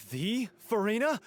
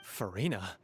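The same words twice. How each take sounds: First: High, loud and drawn-out slow; can't believe it's really her; starstruck disbelief. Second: Said in the usual way. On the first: Real, not acted. Fan realizing her idol is here, starstruck and disbelieving. Fan meets famous consultant.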